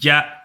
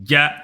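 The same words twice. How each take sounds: Both takes have the same delivery.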